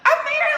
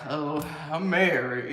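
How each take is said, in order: First: It sounds happy and proud. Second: It sounds flat and unenthusiastic.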